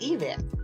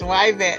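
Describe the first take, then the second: First: The name begins with an 'ee' sound. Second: The name begins with a 'why' sound. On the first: This is how a teacher claimed the name should be said. The speaker calls it wrong. "That it should be pronounced Yvette" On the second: This is how the name is really said. The speaker calls it right. "It is why vet"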